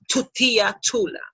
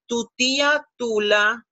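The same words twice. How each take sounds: First: The T is strong, with a puff of air. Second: The T is soft, without a puff of air. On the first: The speaker calls it wrong. "instead of" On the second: The speaker calls it right. "You have to soften that T"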